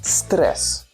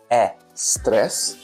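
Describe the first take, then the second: First: The word starts directly with the s sound. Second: An extra vowel sound comes before the word. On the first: The speaker calls it right. "delete that E" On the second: The speaker calls it wrong. "not a stress"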